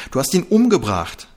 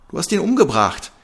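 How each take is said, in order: First: Loud, high accusing shout. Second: Much higher, louder repeated scream. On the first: Seela screaming that Trixie killed him. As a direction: hurl the accusation. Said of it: "schrie Seela". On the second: Seela repeating the accusation, screaming. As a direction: scream it again, desperate. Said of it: "wiederholte Seela schreiend". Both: A narrator's reading.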